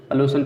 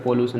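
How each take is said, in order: First: Said in the usual way. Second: "पोल्यूशन" with a full O, po-lu-shan; गलत उच्चारण. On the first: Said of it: "सॉल्यूशन पढ़ते हैं". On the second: Shown as a demonstration. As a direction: open "पोल्यूशन" with a clear "po". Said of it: "नहीं पढ़ते हैं". ("पोल्यूशन" को पो-लू-शन बोलकर)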